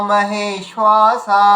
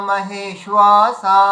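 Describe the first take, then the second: Both takes have the same delivery.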